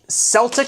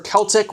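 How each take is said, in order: First: The word begins with an S sound. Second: The word begins with a K sound.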